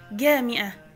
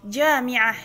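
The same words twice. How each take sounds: First: The word begins with a hard g sound. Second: The word begins with a j sound. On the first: This is the everyday Egyptian form. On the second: This is the formal standard form.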